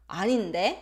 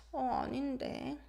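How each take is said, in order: First: 아닌데 lifted sharply at the end; rising, confrontational intonation. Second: Soft, hesitant 아닌데; hesitate, then say 아닌데 quietly and non-confrontationally; falling, hesitant intonation. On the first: Teacher contrasting the two intonations, rising confrontational denial. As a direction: challenge with an upturned 아닌데. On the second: Teacher contrasting the two intonations, soft hesitant denial. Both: Shown as a demonstration. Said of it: "Depends on the intonation".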